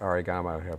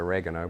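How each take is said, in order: First: It is said with an Australian pronunciation. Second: It is said with an American pronunciation. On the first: "they call it oregano over here" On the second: "in America they call it oregano"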